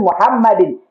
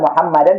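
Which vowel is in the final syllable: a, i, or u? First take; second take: i; a. First: The word ends in an -in sound. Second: The word ends in an -an sound. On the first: The speaker calls it right. "tapi Muhammadin" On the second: The speaker calls it wrong. "bukan Muhammadan"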